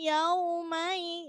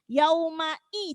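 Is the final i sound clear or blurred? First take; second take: blurred; clear. First: The final i sound is blurred and unclear. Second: The final i sound is clearly articulated. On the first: The speaker calls it wrong. "jangan salah yaumai yaumai ... i-nya itu tidak jelas" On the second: The speaker calls it right. "jelaskan i-nya"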